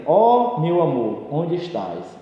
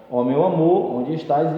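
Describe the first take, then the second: First: Slow, drawn-out lovelorn call; poetic declamation. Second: Said in the usual way. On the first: Shown as a demonstration. Teacher reciting a vocative example to the class, slow declamation. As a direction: recite it like a longing poem, lingering on Ó. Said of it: "Então, por exemplo". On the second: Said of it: "Então".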